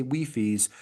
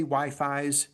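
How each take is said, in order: First: Wi-Fis said as wee-fees, short ee in both halves. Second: Wi-Fis said as why-fies, long i in both halves. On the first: Showing the class the other way to say Wi-Fis, as wee-fees. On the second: Showing the class one way to say Wi-Fis, as why-fies. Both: Shown as a demonstration. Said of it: "We have different accents".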